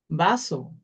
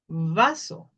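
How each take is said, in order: First: The first sound is like a b. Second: The first sound is like a v.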